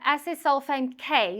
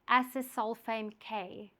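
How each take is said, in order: First: It is said at a normal, quick pace. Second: It is said slowly and deliberately.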